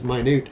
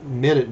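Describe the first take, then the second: First: It is said like the word for tiny. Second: It is said like the unit of time. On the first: "you actually pronounce it as minute" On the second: "It looks like minute"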